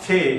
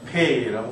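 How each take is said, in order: First: The first consonant is a soft sound. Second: The first consonant is a hard p sound. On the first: The letter has no dot. "점이 없으면 연하게 발음을 해야죠" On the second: The letter has a dot. "우리말 피읍처럼 페이라고 발음을 하시면 되고"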